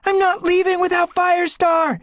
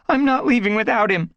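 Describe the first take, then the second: First: Very high, loud desperate cry. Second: High, loud stubborn refusal. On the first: Squirrelpaw refusing to leave her father, desperate cry. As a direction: refuse at the top of your voice. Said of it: "Squirrelpaw cried". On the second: Squirrelpaw refusing to leave Firestar, stubborn and loud. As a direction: dig in and refuse. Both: Acted.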